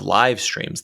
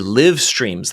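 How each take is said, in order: First: 'Live' is said to rhyme with 'five'. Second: 'Live' is said to rhyme with 'give'. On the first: A native speaker would say it. The speaker calls it right. "instead of live streams them" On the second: A machine reading text aloud said it. The speaker calls it wrong. "He live streams them"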